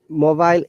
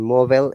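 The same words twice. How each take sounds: First: It is said in a British accent. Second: It is said in an American accent.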